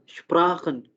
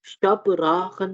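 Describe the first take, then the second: First: शपराखन with light sh and p run together, shprakhen; right way. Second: शपराखन with a full vowel between श and प, slowly; wrong way. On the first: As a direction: say शपराखन as one cluster, shpra-khen. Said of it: "बिल्कुल हल्का सा sound श का और हल्का सा पा का". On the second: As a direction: say शपराखन as sha-pra-khan, the wrong way. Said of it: "शपराखन नहीं होगा". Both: Shown as a demonstration.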